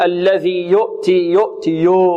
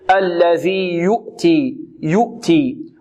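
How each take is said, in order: First: يؤتي with the u opened to "yo'ti"; slack damma. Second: Slow يؤتي with a pure "u", "yu'ti"; correct damma. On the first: Teacher imitating a common mistake, damma turned into o. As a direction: loosen the lips so يؤتي starts "yo". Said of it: "البعض يقول". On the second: Teacher correcting students, clear rounded damma. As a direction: round the lips tightly on the first vowel of يؤتي. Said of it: "لا، الصحيح". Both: Shown as a demonstration.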